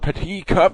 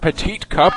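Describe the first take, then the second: First: The final T of the first word is silent. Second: The final T of the first word is pronounced. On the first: The speaker calls it right. "it's actually pronounced the Petit Cup" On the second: The speaker calls it wrong. "not the Petite Cup"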